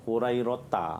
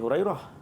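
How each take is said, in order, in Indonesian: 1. Nama itu berakhir dengan akhiran 'ta' penuh. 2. Nama itu tidak berakhir dengan vokal akhir. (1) "memang kena sebut sampai habis" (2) "dia tidak menyebut baris hujung"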